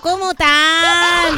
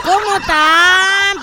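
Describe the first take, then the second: First: Even slower, disbelieving repeat; drawn-out exasperation; exasperated. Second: Slow, louder, exasperated; incredulous drawn-out question. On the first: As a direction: stretch every syllable in disbelief. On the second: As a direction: drag it out in disbelief. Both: Real, not acted. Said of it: "Agradece que no puedo decir malas palabras".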